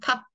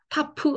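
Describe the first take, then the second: First: The final p is closed without a vowel. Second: The final p is released with a vowel. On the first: The speaker calls it right. "그냥 탑 하고 읽어주셔야 돼요" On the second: The speaker calls it wrong. "타프 하고 읽지 않"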